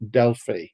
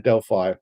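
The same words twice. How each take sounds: First: It is pronounced the European way. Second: It is pronounced the American way. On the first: "being Europeans, we both pronounce it Delphi" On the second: "they all say Delphi"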